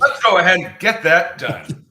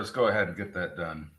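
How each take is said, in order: First: It is said in an excited, enthusiastic tone. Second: It is said in a flat, unenthusiastic tone.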